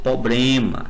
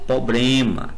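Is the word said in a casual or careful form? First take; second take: casual; casual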